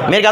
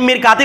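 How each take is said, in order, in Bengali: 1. শব্দটি স্পষ্ট একটি শেষের t দিয়ে শেষ হয়। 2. শব্দটি t আর একটি স্বরধ্বনি দিয়ে শেষ হয়।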